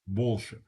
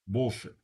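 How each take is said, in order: The two takes are said the same way.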